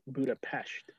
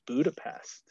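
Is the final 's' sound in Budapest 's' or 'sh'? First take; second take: sh; s. First: The last syllable has an sh sound. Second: The last syllable has a plain s sound. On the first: The speaker calls it right. "With an SH" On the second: The speaker calls it wrong. "I'm actually saying it wrong"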